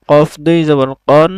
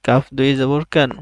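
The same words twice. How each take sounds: First: "কন" said with a full, dark o; heavy ق sound, "কন" rounded like o; heavy letter with tanween. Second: "কান" said with a thin, open a; light ك sound, "কান" with a clear a; light letter with tanween. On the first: (মোটা স্বরে "কন") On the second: (পাতলা স্বরে "কান") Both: Shown as a demonstration. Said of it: "তানবিনের মাধ্যমে হরফের উচ্চারণের পার্থক্য".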